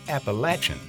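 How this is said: It is said the southern regional way. The speaker learned it in the central or southern mountains. "proudly pronounced Appalachian in the central and southern parts"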